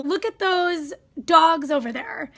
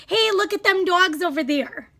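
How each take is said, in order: First: Said in the usual way. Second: Mock folksy. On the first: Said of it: "For example". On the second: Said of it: "They'd say".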